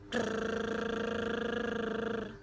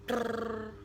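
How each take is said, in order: First: The lip trill is held the longest. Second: The lip trill is held only briefly. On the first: "lebih cepat lagi daripada yang set pertama dan yang set kedua. Lebih panjang maksud saya" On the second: "Yang pertama"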